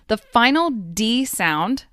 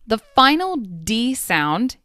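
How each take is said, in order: Both takes have the same delivery.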